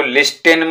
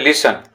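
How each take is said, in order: First: लिस्टेन said with a sounded T, lis-ten; wrong reading. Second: लिसन said as lis-en with a silent T; correct pronunciation. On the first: Teacher showing pupils the wrong reading, लिस्टेन with the T sounded. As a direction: say लिस्टेन pronouncing the T in the middle. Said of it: "इसको लिस्टेन मत पढ़िएगा". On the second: Teacher showing pupils the right reading, लिसन with silent T. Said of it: "इसको बोलते हैं लिसन". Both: Shown as a demonstration.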